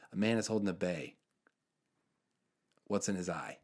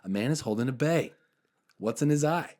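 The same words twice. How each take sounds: First: Put-on deadpan riddle in a light Jersey accent. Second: Put-on louder, higher riddle in a Jersey accent; emphatic Jersey repeat. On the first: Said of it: "and he's from Jersey". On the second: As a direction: repeat it insistently as a Jersey guy, voice raised. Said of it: "And he repeats it".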